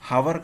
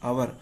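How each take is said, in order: First: It starts with an audible h sound. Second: It starts with a vowel, no h. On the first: The speaker calls it wrong. "హవర్ కాదు" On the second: The speaker calls it right. "ఆ హెచ్ silent ఉంటుంది"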